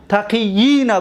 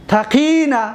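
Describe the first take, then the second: First: تقیین with the long i split into two ya sounds. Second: Said in the usual way. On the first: Shown as a demonstration. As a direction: sound both ya's in تقیین. (تقیین با دو یا) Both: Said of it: "دو تا یا بود".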